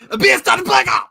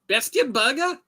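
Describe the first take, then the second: First: The word is said forcefully with anger. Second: The word is said calmly, like a question.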